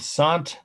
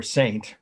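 First: French-style "sahnt" for Saint; French pronunciation. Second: Said in the usual way. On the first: Shown as a demonstration. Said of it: "the French would say Saint". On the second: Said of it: "say it our way".

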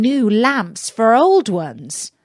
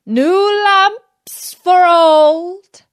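First: Said in the usual way. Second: Slow, high, loud peddler's cry. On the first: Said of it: "laughing to see an old fool". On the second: Acted. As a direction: call it out to the street slowly.

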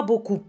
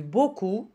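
First: "beaucoup" with a popped final P; P wrongly sounded. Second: "beaucoup" ending cleanly on the vowel; silent P. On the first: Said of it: "On ne dit pas beaucoup". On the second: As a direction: leave the P of "beaucoup" unsaid. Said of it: "donc P". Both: Shown as a demonstration.

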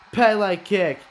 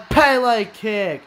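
Both takes have the same delivery.

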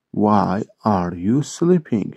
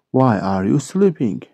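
First: "Why are you sleeping" slowly, word by word; slow model repeat. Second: Said in the usual way. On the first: Shown as a demonstration. English teacher repeating a question for Turkish learners, slow model repeat. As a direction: stretch each word out for learners.

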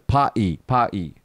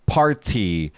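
First: British "party" as "pa-e", t dropped; local British accent. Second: "party" with a full r and a crisp t; American pronunciation. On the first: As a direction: imitate a British coworker swallowing the t in "pa-e". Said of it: "in his local British accent". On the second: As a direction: say "party" slowly, sounding the r and t. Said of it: "We say party". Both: Shown as a demonstration.

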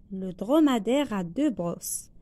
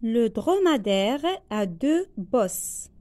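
First: Said in the usual way. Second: Slow, word by word dictation; spaced classroom dictation. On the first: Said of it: "teacher repeats at normal pace". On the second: Shown as a demonstration. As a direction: read it out slowly for pupils to write. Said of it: "teacher dictates slowly".

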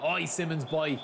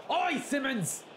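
First: Said in the usual way. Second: High, excited call. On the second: Real, not acted. Gamer cheering his player on, high excited call.

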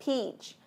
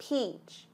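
Both takes have the same delivery.

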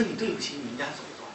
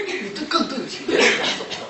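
First: Said in the usual way. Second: 更 hit hard with raised pitch; high, emphatic 更 after a brief restart; stress on 更. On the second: Retold or imitated. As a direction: escalate the reproach by punching 更. Second, escalated reproach stressing 更.

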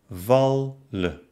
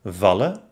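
First: Wal-len with a clear gap; wallen by syllables. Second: Said in the usual way. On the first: Shown as a demonstration. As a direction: break wallen between the two l's. (wallen nach Silben getrennt) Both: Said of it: "trenne dann das Wort".

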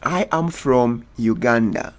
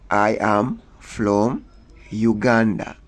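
First: Said in the usual way. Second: Slowed for learners. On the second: Shown as a demonstration.

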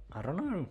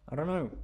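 The two takes are said the same way.

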